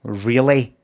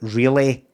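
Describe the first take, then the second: No difference in how they are said.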